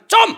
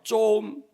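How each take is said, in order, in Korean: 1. 날카롭게 거절하는 말투로 말해요. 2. 애원하듯 조르는 말투로 말해요. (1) "안 돼, 이 말이죠" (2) "달라는 말이죠"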